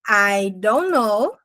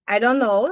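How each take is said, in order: First: It is said slowly with each word clear. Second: It is said quickly with the words run together.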